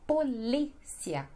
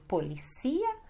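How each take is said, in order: First: "polícia" as po-LI-sia, stress on LÍ; Portuguese pronunciation. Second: "policia" as po-li-SI-a, stress on CI; Spanish pronunciation. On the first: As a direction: lengthen LÍ in "polícia". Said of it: "mas no português é". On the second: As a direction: stress the second-last vowel in "policia", Spanish style. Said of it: "que em espanhol seria". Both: Shown as a demonstration.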